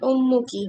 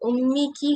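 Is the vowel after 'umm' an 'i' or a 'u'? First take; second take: u; i. First: The vowel after umm is u. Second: The vowel after umm is i. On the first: The speaker calls it right. "उम्मू की होगा" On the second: The speaker calls it wrong. "उम्मी की है ये"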